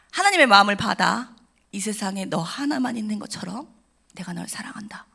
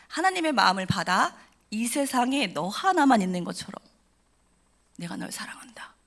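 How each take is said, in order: First: Tender pastor's blessing. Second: Slow, hushed, ending in a whisper; slower tender blessing. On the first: Retold or imitated. Pastor hugging the crying girl, a tender blessing fading to a whisper. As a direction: bless her gently, ending in a whisper. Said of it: "목사님이 저를 안으시면서 이렇게 말씀하셨어요". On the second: Shown as a demonstration. Speaker repeating the pastor's words to listeners, slow hushed whisper. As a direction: savour each word, then whisper. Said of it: "repeated pastor's words".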